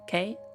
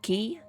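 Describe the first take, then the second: First: The name is said like the letter K. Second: The name is said like the word key. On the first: "Or a K, the letter?" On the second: "Like a key to a door?"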